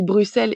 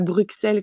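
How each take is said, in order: First: The middle consonant is a plain s sound. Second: The middle consonant is a ks sound. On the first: This is how it is said in Belgium. "je dis Bruxelles ... ça se prononce avec deux S et on prononce pas le X" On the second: This is how it is said in France. "comme en France"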